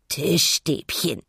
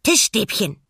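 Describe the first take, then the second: First: Langsam gegurrte Pinguinstimme; gurren. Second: Hohe, laute Pinguinfigur; nachsprechender Pinguin. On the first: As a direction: gurre es gedehnt und zufrieden. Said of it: "gurrte er". (zufrieden gurrender Pinguin) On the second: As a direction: begeistert als kleines Tier nachplappern. (fröhlich nachplappernde Pinguinstimme) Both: A narrator's reading.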